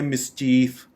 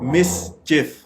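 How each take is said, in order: First: The word ends with a sound like 'chief'. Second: The word ends with a short 'chif' sound. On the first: The speaker calls it wrong. "जैसे खाली चीफ हो ना कोई" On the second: The speaker calls it right. "ये दो syllables इस words के बनेंगे मिस चिफ।"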